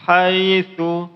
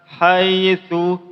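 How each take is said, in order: No difference in how they are said.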